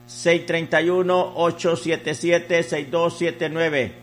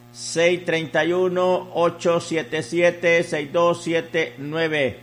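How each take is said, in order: Both takes have the same delivery.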